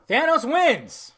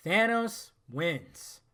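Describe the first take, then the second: First: High, loud, slow cry of disbelief; shocked exclamation. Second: Very slow, at normal pitch and volume; slow, sober repeat. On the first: Retold or imitated. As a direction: blurt it out loudly, stretched. Shocked exclamation, then repeated low. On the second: Real, not acted. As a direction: let each word land slowly. Same words repeated in usual pitch.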